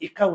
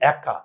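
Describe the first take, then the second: First: The first vowel is a close 'e'. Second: The first vowel is an open 'ae'. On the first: The speaker calls it wrong. "একা উচ্চারণ করি না" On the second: The speaker calls it right. "আমরা এটাকে উচ্চারণ করি একা, অ্যা, চোয়াল খুলে গেছে।"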